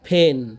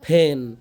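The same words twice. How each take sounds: No difference in how they are said.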